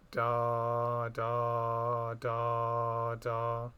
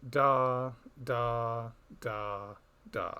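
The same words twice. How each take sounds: First: Smooth joined da da da da, even; connected beats. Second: Detached da da da da, first loudest; separated beats. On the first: Teacher showing two two time, connected legato syllables. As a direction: glide the da syllables together legato. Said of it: "In two two time, they'd be connected". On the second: Teacher showing two four rhythm, detached syllables. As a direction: tap out each da apart. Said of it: "a rhythm that goes". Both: Shown as a demonstration.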